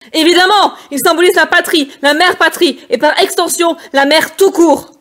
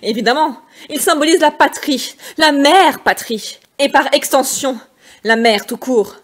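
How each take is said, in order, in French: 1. La ligne est criée très fort. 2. La ligne est dite avec une irritation contenue et maîtrisée. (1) "Au lieu de crier, chose que je n'arriverai pas à faire" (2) "je vais garder la notion d'énervement"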